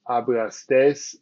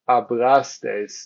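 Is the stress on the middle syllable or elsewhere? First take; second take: elsewhere; middle. First: The stress is not on the middle syllable. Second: The stress is on the middle syllable. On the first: The speaker calls it wrong. "instead of hablastes" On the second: The speaker calls it right. "This is why we say hablastes"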